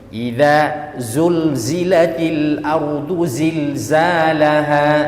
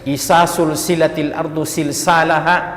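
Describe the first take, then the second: First: The first word has dh, then z sounds. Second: The z sounds are replaced by s sounds. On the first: The speaker calls it right. "Kalau idza keluar lidah sedikit" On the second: The speaker calls it wrong. "yang dal dibaca sa"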